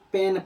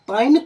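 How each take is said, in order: First: The vowel sounds like 'ay'. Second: The vowel sounds like 'eye'. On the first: The speaker calls it right. "पेन पढ़ेंगे" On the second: The speaker calls it wrong. "पाइन पढ़ते हैं तो यह गलत होगा"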